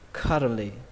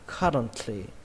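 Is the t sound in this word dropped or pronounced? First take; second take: dropped; pronounced. First: Said quickly, with the t dropped entirely. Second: Said slowly, with the t clearly aspirated. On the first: "khi đọc nhanh các bạn bỏ âm T luôn nhé" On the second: "Khi đọc chậm thì các bạn bắn hơi âm T như thế này"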